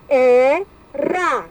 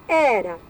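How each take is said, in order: First: "Era" split as e, ra with a pause between; "Era" as two detached syllables. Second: Said in the usual way. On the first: Shown as a demonstration. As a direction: sound out "Era" in two drawn-out beats. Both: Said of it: "separar em sílabas".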